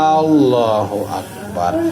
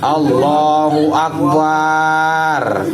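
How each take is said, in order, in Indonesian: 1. Vokal setelah b itu pendek. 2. Vokal setelah b itu dipanjangkan.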